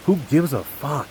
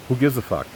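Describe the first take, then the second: First: Pissed off. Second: Mildly irritated dismissal, pitched up. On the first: Son retelling what he told his father, pissed off. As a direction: hit it harder, openly fed up. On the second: Son venting about his father's correction, irritated. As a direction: brush the argument off, annoyed. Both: Retold or imitated. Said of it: "I was pissed".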